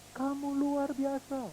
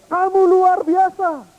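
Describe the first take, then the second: First: Slow, very soft, distant; echo of praise. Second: High, loud, slow call; child calling praise. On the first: Echo returning the praise, slow and faint. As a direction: let it come back slow and faint. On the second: Boy calling praise to the hills, high and slow. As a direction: stretch it out across the hills. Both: Pretend.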